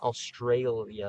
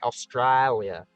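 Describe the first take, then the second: First: The word is said without the 'i' sound. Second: The word is said with the 'i' sound. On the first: The speaker calls it wrong. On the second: The speaker calls it right. "Got to say it with the I"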